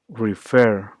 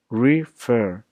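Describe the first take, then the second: First: "refer" with the stress on fer; stress on second syllable. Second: "refer" in two separated syllables, re-FER; stress on second syllable. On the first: Teacher showing which syllable carries the tone, "refer" stressed on fer. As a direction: lean on the end of "refer". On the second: Teacher breaking the word up for learners, "refer" as re, FER. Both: Shown as a demonstration. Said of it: "The emphasis and tone is on fer".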